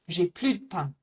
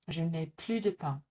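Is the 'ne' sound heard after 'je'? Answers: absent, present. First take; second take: absent; present. First: The n sound of the negation is dropped. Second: The n sound of the negation is pronounced.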